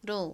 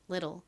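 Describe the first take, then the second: First: It is said with a Korean-style pronunciation. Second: It is said with an American pronunciation. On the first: "한국식으로는" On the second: "미국식 원어 발음으로는"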